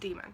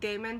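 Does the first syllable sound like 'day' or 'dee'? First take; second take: dee; day. First: The first syllable sounds like 'dee'. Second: The first syllable sounds like 'day'. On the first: The speaker calls it right. "but it's pronounced demon" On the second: The speaker calls it wrong. "I know it sort of looks like Damon"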